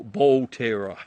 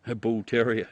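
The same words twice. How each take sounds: First: "ball terror" with a long BALL and TERROR in two syllables; BALL TERROR mispronunciation. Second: Said in the usual way. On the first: Shown as a demonstration. Joking with Steve over the dog breed, "ball terror" mispronounced. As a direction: say "ball terror" loudly, bull as ball, terrier as terror. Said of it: "I thought it was ball terror". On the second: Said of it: "No, ball, ball terror".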